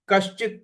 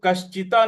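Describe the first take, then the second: First: कश्चित ending on a halant त; कश्चित with no vowel after त; correct reading. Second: कश्चिता with a wrong long final आ; mispronounced कश्चिता ending in आ; wrong reading. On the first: Teacher showing the right way to read. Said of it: "कश्चित पढ़ना है". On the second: Teacher showing the wrong way to read. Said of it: "कश्चिता नहीं पढ़ना है". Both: Shown as a demonstration.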